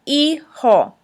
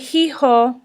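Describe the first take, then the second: First: The h at the start is silent. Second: The h at the start is pronounced. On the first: The speaker calls it right. "The H is silent" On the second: The speaker calls it wrong. "We don't say hijo"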